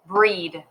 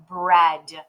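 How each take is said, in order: First: "breed" with a long ee vowel; long E try. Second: "bread" with a short eh vowel; short E sound. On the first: Teacher to young readers, trying the long E reading. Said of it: "this is not E". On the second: Teacher to young readers, trying the short E sound. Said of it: "we're gonna try the E sound". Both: Shown as a demonstration.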